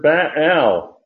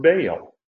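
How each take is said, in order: First: Baal in two syllables, "bah-AL"; Baal said slowly with two separate vowels; Hebrew pronunciation. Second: Baal in one glide, "BAY-ul"; Baal with a long AY, falling; anglicized pronunciation. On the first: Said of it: "It's the word". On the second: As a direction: say Baal the English way, like "bail". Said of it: "the word Baal". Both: Shown as a demonstration.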